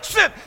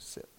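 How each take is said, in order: First: It is said loudly and forcefully. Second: It is said quietly and calmly.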